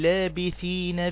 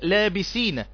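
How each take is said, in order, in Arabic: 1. الحرف الأوسط هو th ملثوغ. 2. الحرف الأوسط هو s مصفّر. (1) "قول لابثين" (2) "يبقى انت حولت الثاء الى سين"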